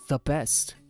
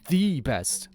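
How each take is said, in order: First: The stress falls on the word best. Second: The stress falls on the word the.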